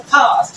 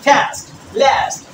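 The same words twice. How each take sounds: First: "ফাস্ট" with a British long aa. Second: American "ফাস্ট, লাস্ট" with ae vowels, slow; American accent. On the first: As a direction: say "ফাস্ট" with aa as in father. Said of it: "আ উচ্চারণ করবা". ("ফাস্ট" লম্বা আ দিয়ে) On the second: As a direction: say "ফাস্ট, লাস্ট" slowly as American "faest, laest". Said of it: "আমেরিকানরা এগুলো কিভাবে উচ্চারণ করে". ("ফাস্ট, লাস্ট" American অ্যা দিয়ে) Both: Shown as a demonstration.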